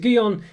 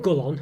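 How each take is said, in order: First: The middle consonant sounds like a Y. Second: The middle consonant sounds like an L. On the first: The speaker calls it right. "the double L is pronounced like a Y" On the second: The speaker calls it wrong. "it's not Gullon"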